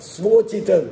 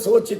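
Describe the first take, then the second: First: It starts with 's' followed by a 'v'. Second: It starts with a plain 's' and no 'v'. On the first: It means fitting for oneself. The speaker calls it right. "ಅದಲ್ಲ, ಸ್ವೋಚಿತ" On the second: It means something to be anxious about. The speaker calls it wrong. "ಸೋಚಿತ ಸೋಚಿತ ಅಂತ ಕೆಲವರು ಉಚ್ಚಾರಣೆ ಮಾಡಿಬಿಡ್ತಾರೆ"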